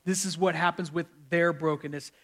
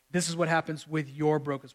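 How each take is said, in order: First: "their" leaned on as a contrast; stress on their. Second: "your" leaned on to address listeners; stress on your. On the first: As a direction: set "their" apart from the rest. Contrasts their with your brokenness. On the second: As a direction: land on "your" to make it personal. Contrasts your with their brokenness. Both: Real, not acted.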